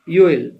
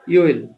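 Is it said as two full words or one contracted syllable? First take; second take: contracted; contracted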